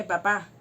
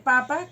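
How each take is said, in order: First: "papá" with stress on the last syllable, pa-PÁ. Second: "papa" with stress on the first syllable, PA-pa. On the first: Teacher showing students "papá", last syllable stressed. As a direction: say "papá" as pa-PÁ, the father. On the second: Teacher showing students "papa", first syllable stressed. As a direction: say "papa" as PA-pa, the potato. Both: Shown as a demonstration. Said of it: "No es lo mismo decir papa que papá".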